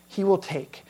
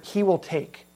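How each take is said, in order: First: "will" stressed, falling on "take"; stress on will again. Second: "will" pressed with a falling tune; stress on will. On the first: Preacher repeating the key phrase for the congregation. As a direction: land on "will" then let "take" fall. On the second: Preacher showing the text's key emphasis. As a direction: lean on "will" in "he will take". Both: Shown as a demonstration. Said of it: "the emphasis is on this word".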